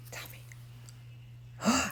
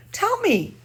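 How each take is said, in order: First: Soft breathless whisper of tell me. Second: Eager high ask. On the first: Host to the puppet, coaxing it, in a whisper. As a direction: lean in and whisper it like a secret. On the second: Coaxing puppet to answer. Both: Real, not acted.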